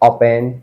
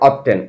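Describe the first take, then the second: First: The t sound in the word is silent. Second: The t sound in the word is pronounced.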